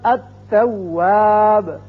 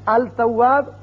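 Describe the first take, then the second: First: The l is silent and the t is doubled. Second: The l is pronounced before the t. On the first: The speaker calls it right. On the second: The speaker calls it wrong.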